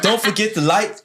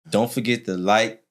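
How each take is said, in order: First: It is said with exaggerated, high energy. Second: It is said with ordinary, modest energy.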